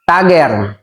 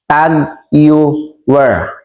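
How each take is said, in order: First: The name sounds like 'Tagger'. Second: The name sounds like 'Tag Heuer'. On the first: The speaker calls it wrong. "marami pong nagkakamali sa pronunciation" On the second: The speaker calls it right. "ang tama pong pagbasa dyan at pronunciation po niyan"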